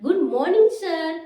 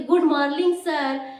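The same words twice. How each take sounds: First: मॉर्निंग said clearly as "morning", with a proper N; correct pronunciation. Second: मॉर्निंग said as "morling", with an L where the N should be; wrong pronunciation. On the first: Teacher showing students the right greeting, मॉर्निंग said clearly as "morning". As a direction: say मॉर्निंग carefully with a clean N sound. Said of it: "हमें क्या बोलनी चाहिए?". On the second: Teacher showing students the wrong greeting, मॉर्निंग said "morling". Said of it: "लेकिन ये गलत है". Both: Shown as a demonstration.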